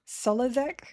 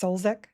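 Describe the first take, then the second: First: The name is said with three syllables. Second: The name is said with two syllables. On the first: "I believe is how I pronounce it" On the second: "or just Solzek. I skip the U con- completely"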